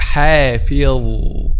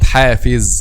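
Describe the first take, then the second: First: The final consonant is an emphatic dh sound. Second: The final consonant is a plain z sound. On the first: The speaker calls it right. "So it's called" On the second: The speaker calls it wrong.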